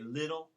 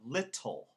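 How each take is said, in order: First: The middle T sounds soft, almost like D. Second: The middle T is pronounced as a crisp T. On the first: The speaker calls it wrong. "in the South, they would say little" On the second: The speaker calls it right. "instead of little"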